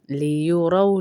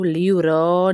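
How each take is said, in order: First: लियुरौ with lips rounded on रौ. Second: लियुरौ with flat, unrounded रौ; wrong unrounded. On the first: Teacher showing the right लियुरौ, lips rounded. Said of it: "रौ में आपके होंठ फिर गोल हो जाएंगे". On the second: Teacher showing the wrong लियुरौ, lips left flat. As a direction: say लियुरौ without rounding the lips. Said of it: "लियुरौ नहीं पढ़ते". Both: Shown as a demonstration.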